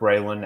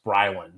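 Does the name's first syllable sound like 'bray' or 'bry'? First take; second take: bray; bry. First: The first syllable sounds like 'bray'. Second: The first syllable sounds like 'bry'. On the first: "It is spelled like Braylon, and in fact, I had heard Braylon after he signed" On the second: "More recently, though, on some broadcasts, I have heard it pronounced Brylan"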